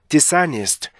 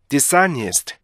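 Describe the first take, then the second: The two takes are said the same way.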